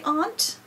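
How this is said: It is said the British way. "over in Great Britain they say aunt"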